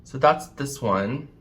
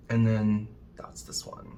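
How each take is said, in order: First: Said in the usual way. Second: Soft unvoiced whisper. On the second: Real, not acted. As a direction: breathe it out in a hush. Whispered aside while swatching.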